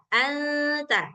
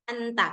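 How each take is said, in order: First: The n sound is blurred into the t. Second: The n sound is fully and clearly pronounced. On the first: The speaker calls it right. "suara nun sukunnya itu samar-samar" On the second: The speaker calls it wrong. "nggak boleh baca anta, anta. Kalau kita baca anta berarti nun sukunnya kan jelas"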